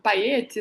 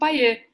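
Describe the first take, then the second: First: The name ends with an audible t sound. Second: The name ends in a vowel, no t. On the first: This is how the other person says the name. "eu ouço você dizendo paete" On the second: This is how Brazilians commonly say the name. "os brasileiros só falam paiê"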